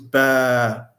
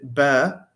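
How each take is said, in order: First: The vowel is long. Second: The vowel is short.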